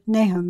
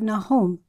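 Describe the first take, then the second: First: Nahum is pronounced in the usual English way. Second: Nahum is pronounced in a Hebrew-like way.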